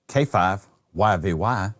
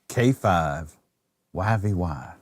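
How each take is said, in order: First: The call sign is said very quickly. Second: The call sign is said slowly and deliberately. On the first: The speaker calls it wrong. "you talked way too fast when you said that" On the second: The speaker calls it right. "You got to slow it down about three thousand percent"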